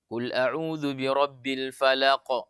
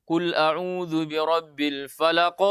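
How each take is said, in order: First: Slow recitation with light final bounce on "falaq"; small qalqalah. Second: Slow recitation with a bigger bounce on "falaq"; big qalqalah. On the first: Teacher showing the wrong small-qalqalah reading. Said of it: "bukan kita mengatakan qalqalah sugro". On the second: Teacher showing the wrong big-qalqalah reading. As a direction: let "falaq" bounce out large at the end. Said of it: "dengan sebesar". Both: Shown as a demonstration.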